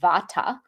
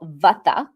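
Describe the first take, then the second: First: It uses a Western-style pronunciation of the word. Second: It uses a Sanskrit-style pronunciation of the word.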